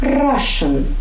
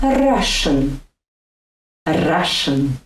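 First: "Russian" with a short flicked R; Russian rolled R. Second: Flick the R in "Russian" lightly; Russian rolled R. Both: Shown as a demonstration. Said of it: "lightly flicking the tip".

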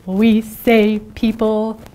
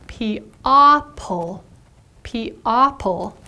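First: "people" said normally as PEE-pul; real pronunciation. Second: "P-opple" with a clear short o like in pop; spelling pronunciation P-opple; sound-out spelling. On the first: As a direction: say "people" the usual way. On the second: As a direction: say "P-opple" as it looks. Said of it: "When you sound it out, it looks like". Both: Shown as a demonstration.

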